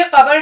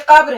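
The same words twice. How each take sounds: First: قبر opened into two syllables, qa-bar; wrong pronunciation. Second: قبر as one syllable, qabr; correct pronunciation. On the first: Teacher showing what it is not, قبر as qabar. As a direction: say قبر with a vowel after the b. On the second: Teacher correcting learners, قبر as qabr. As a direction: close the b straight onto the r in قبر. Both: Shown as a demonstration. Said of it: "یہ بھی قبر نہیں ہے".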